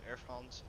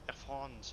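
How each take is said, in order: First: The name is said with an English accent. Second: The name is said with a French accent. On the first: The speaker calls it wrong. "It's not proper French" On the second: The speaker calls it right. "you have to say it with the accent"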